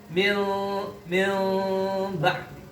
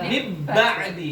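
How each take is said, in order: First: The n is hidden with a heavy nasal hum. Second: The n is merged fully into the b. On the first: "kalau didengungkan dia juga berat, memberatkan" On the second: "Idghamkan, diidghamkan ke ba"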